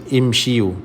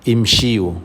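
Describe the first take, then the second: No difference in how they are said.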